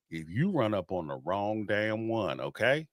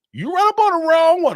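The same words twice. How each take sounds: First: Said real slow. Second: Higher and much louder burst on the repeat; loud warning. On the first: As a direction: lower and softer, each word laid out. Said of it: "I'm gonna say this real slow". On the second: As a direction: hit it hard to drive the point home. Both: Real, not acted.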